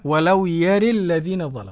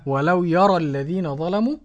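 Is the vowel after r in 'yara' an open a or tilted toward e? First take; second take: tilted e; open a. First: The vowel after r leans toward e. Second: The vowel after r is a plain open a. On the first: This is the variant reading with imala. "والإمالة" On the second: This is how the majority of readers recite it. "مثل الجماعة"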